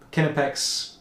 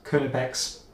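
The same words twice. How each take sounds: First: Knipex with short "kin" opening; alternative pronunciation. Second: Knipex with "kuh" opening; alternative pronunciation. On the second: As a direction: say Knipex as "KUH-nuh-pex". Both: Shown as a demonstration. Repeats brand in both pronunciations.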